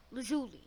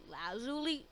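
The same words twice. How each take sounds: First: "lazuli" as luh-ZOO-lee; second option. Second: "lazuli" as LAH-zoo-lee; first option. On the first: Viewer still unsure, trying "lazuli" as luh-ZOO-lee. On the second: Viewer still unsure, trying "lazuli" as LAH-zoo-lee. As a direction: open LAH starting "lazuli". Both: Shown as a demonstration. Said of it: "Is it lazuli or lazuli?".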